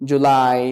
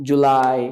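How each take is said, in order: Both takes have the same delivery.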